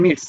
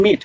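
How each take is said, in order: First: "মিটস" ending in a t-s cluster; "মিটস" with an audible final s; final S sounded. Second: Said in the usual way. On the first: Shown as a demonstration. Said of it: "S বা ES যোগ করিয়া আপনি উচ্চারণ". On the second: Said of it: "S বা ES যোগ করিয়া".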